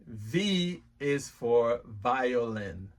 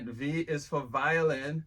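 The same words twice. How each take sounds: First: V is for violin said very slowly and clearly; slow model phrase. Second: Said in the usual way. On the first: Shown as a demonstration. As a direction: stretch each word out for a learner. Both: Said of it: "repeat after me".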